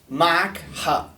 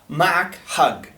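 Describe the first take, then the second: First: The last word ends in a glottal stop. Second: The last word ends in a hard g. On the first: "the second one here is mak ha" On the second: "in more of a Jordanian Bedouin type"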